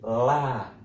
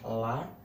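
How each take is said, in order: First: The vowel is drawn out long. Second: The vowel is said short. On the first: "maka harus membacanya panjang" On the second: "Jika lam seperti ini, bacanya adalah la"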